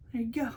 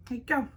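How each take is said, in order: First: Whispered. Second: Said in the usual way. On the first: Real, not acted. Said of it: "whispered then repeated".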